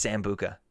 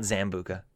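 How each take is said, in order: First: Said in the usual way. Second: Zambuca with a buzzing Z at the start; Z pronunciation. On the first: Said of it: "it's Sambuca with an S". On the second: Shown as a demonstration. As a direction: say Zambuca with a voiced Z, not an S. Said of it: "like, with a Z?".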